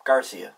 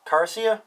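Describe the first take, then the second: First: "Garcia." said lower with a firm falling end; "Garcia." dropped low and final; settled statement. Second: "Garcia?" rising up high, testing the name; "Garcia?" asked, the end lifting; unsure questioning. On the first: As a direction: land "Garcia" down, deciding on it. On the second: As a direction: try "Garcia" with a doubtful upward lilt. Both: Shown as a demonstration. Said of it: "Must be Garcia".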